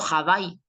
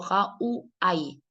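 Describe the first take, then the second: First: The W is pronounced like a B sound. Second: The W is pronounced like a U sound. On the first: The speaker calls it wrong. "Aquí no suena a B. Yo no digo Hawái" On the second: The speaker calls it right. "sino que digo Ja-U-A-I. U-A-I, suena U"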